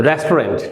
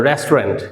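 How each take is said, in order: No difference in how they are said.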